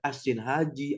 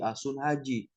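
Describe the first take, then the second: First: The vowel after the first s is i. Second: The vowel after the first s is u. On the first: "bisa juga dikatakan sin haj" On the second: "bahkan bisa juga dikatakan sun haj"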